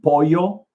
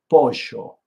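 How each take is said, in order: First: The double L sounds like a y. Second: The double L sounds like zh, Argentinian style.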